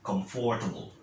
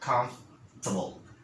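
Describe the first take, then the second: First: The middle 'for' syllable is fully pronounced. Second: The middle 'for' syllable is dropped. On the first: The speaker calls it wrong. "as many people say these words, they say comfortable" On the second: The speaker calls it right. "you don't have to enunciate the four. Okay, you just say comf, a little bit of an F sound"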